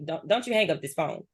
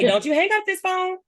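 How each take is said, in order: First: The voice sounds stern and harsh. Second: The voice sounds warm and smiling. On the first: It sounds like a rude order. The speaker calls it wrong. "you might be like, "Talking to."" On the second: It sounds like a playful, friendly request. The speaker calls it right. "I'm smiling"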